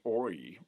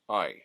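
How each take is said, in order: First: The vowel is an 'oy' glide. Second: The vowel is a plain 'eye' glide. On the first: "rather than becoming the oi" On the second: "very much like I would"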